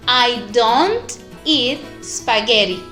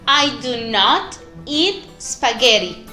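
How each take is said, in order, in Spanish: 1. 'Do' y 'not' se unen en una sola palabra corta. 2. 'Do' y 'not' se dicen como dos palabras completas. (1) "Con la contraction, do not, quedará" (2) "La primera oración decía"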